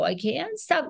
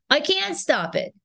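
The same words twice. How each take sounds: First: High but softened Queens accent; relaxed Queens accent. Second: High, emphatic Queens accent; overdone Queens accent. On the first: Actor showing the accent rhythm she learned, relaxed Queens accent. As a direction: ease into the Queens rhythm on "can't stop". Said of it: "I realized I could relax". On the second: Actor showing the accent before it relaxed, overdone Queens. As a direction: push "can't" up high in a stiff Queens accent. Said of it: "rather than saying". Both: Shown as a demonstration.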